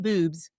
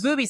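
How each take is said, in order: First: The name is said with one syllable. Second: The name is said with two syllables. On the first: The speaker calls it wrong. "I want to say it Boobs, but I say it wrong" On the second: The speaker calls it right. "it's Boobies, right?"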